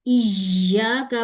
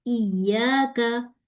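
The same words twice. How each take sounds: First: इय्याका said the wrong way as a demo; wrong reading. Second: इय्याका slow, doubled ya held clean; correct recitation. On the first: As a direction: show the faulty इय्याका. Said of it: "पढ़ा तो wrong". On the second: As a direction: recite इय्याका the right way, slowly. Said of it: "सूरह फातिहा में पढ़ते हैं". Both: Shown as a demonstration.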